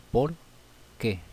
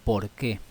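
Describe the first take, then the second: First: "por qué" as two words with a long pause between; teacher spacing out "por" and "qué"; separated words. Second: "por qué" run together, accent on "qué"; teacher demonstrating accented "qué"; stress on qué. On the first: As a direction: say "por", stop, then "qué". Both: Shown as a demonstration. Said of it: "Separado y con acento en la E".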